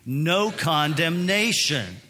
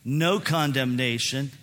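First: It is said loudly with strong force. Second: It is said in a calm, ordinary voice.

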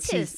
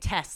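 First: The name is said in a New Zealand accent. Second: The name is said in a plain accent. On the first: "she would always say her name was" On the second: "I had a friend named Tess"

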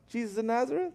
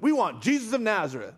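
First: It is said hesitantly, like a nervous question. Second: It is said confidently, as a plain statement.

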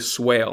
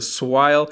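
First: The word is said in a plain accent. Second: The word is said in a mock Australian accent.

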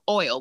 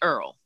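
First: It has an 'oy' vowel, in a standard accent. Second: It sounds like 'Earl', in a New Orleans accent. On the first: This is how most people say it. "you would pronounce it" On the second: This is how locals of the region say it. "we say Earl"

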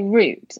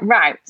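First: It is said with a British pronunciation. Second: It is said with an American pronunciation.

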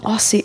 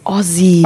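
First: It is said the American way. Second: It is said the Australian way.

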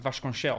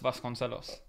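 First: The name is said with a Portuguese pronunciation. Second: The name is said with an English pronunciation.

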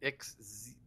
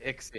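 First: The X is pronounced as a z sound. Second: The X is pronounced as a ks sound. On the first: "the X could be a Z sound, like in xylophone" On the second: "Instead of"

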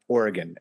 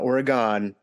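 First: The name is said in the local pronunciation. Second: The name is said in an outsider's pronunciation. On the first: The speaker calls it right. "said it correctly" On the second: The speaker calls it wrong. "It's not Oregon"

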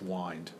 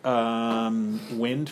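First: The vowel is long, rhyming with kind. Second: The vowel is short, rhyming with pinned. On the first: This is the older pronunciation. "up until the 18th century was pronounced wind" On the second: This is today's pronunciation. "The word wind, for example, as the wind is blowing"

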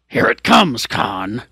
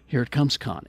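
First: It is said with dramatic energy. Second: It is said in a bored, tired way.

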